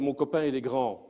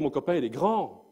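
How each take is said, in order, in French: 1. La hauteur sur « grand » reste normale. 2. La hauteur monte haut sur « grand ». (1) "vous imaginez un mètre quatre-vingts" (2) "l'augmentation des fréquences de ma voix"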